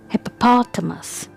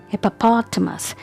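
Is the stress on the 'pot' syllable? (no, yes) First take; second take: yes; yes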